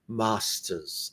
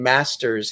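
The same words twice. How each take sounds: First: It is said with an English accent. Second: It is said with an American accent.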